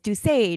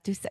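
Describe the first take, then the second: First: The name is said with French pronunciation. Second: The name is said with English pronunciation. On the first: This is how it is said in Quebec. The speaker calls it right. "in Quebec it's" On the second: This is how it is said in America. The speaker calls it wrong.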